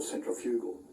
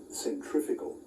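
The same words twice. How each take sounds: First: "centrifugal" said as centri-FEW-gal; Northern Hemisphere pronunciation. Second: Said in the usual way. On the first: Shown as a demonstration. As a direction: say "centrifugal" with a clear "fyoo" syllable. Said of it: "if you're from the Northern Hemisphere".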